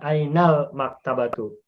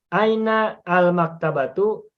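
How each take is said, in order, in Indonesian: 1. Artikel disambungkan dengan lancar ke kata sebelumnya. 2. Artikel dipotong dari kata sebelumnya. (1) "atau boleh juga baca ainal maktabatu" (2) "boleh membaca aina al maktabatu"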